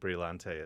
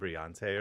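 First: The word is pronounced in an Italian way. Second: The word is pronounced in a French way. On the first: "I think that it's Italian, ... Brillante would be correct" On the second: "a French sort of Brillante"

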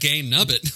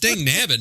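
First: The phrase begins with a G sound. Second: The phrase begins with a D sound. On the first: The speaker calls it wrong. "not Gang Nubbit" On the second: The speaker calls it right. "It's Dang Nabbit"

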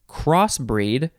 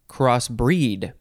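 First: The stress is on the first syllable. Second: The stress is on the second syllable. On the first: "you can emphasize either syllable" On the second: "you can emphasize either syllable"

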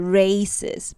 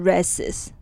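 First: The A is said as a long vowel. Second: The A is said as a short vowel. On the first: The speaker calls it right. "赛跑它的A 是长音的A，所以是races" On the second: The speaker calls it wrong. "不是races"

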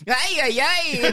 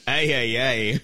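First: It is said in a high-pitched voice. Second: It is said in a low-pitched voice.

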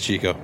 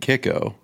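First: The name begins with a ch sound. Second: The name begins with a k sound. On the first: The speaker calls it right. "It is Chico" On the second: The speaker calls it wrong. "I've gotten kicko"

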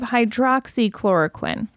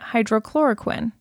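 First: A 'ks' sound follows 'hydro'. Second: There is no 'ks' sound after 'hydro'. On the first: The speaker calls it right. "instead of hydroxychloroquine" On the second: The speaker calls it wrong. "I was just calling it hydrochloroquine"

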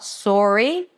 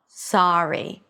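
First: The first vowel is a pure rounded o. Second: The first vowel is an open ah sound. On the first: The speaker calls it wrong. "it is not a pure O as many non-native speakers pronounce it. It's not sorry" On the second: The speaker calls it right. "it's sa, sorry"

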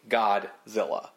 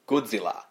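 First: The name is pronounced with English-style sounds. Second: The name is pronounced with Japanese-style sounds. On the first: "an English speaker is going to look at that and see Godzilla" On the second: "if we were saying it in a Japanese style, it would be like Godzilla"

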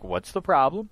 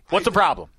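First: It is said in a level, calm tone. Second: It is said with urgency.

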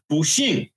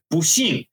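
Both takes have the same delivery.

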